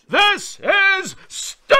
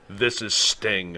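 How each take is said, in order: First: It is said loudly, with big energy. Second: It is said calmly, without much energy.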